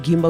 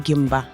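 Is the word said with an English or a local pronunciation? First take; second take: English; local. First: The word is said with an English-sounding pronunciation. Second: The word is said with a local, non-English pronunciation. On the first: The speaker calls it wrong. "We don't say Gimba" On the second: The speaker calls it right. "we say Gimba"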